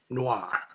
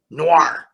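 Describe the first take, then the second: First: The final R starts to form, then trails off. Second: The word ends with a strong American R sound. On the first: "you're not really biting that R" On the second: "I was an adamant American"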